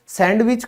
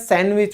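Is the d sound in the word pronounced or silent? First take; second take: pronounced; silent. First: The d sound is pronounced in the middle. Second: The d sound is left out in the middle. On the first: The speaker calls it wrong. "कभी नहीं होता है" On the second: The speaker calls it right. "होता है"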